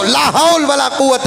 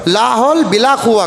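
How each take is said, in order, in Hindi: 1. इस वाक्यांश में 'wala' है और पूरा 'quwwata'। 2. इस वाक्यांश में 'bila' है और छोटा किया हुआ 'quwwa'। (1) "सही पढ़ना" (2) "कहते तो ला हौल बिला कुव्वा कहते"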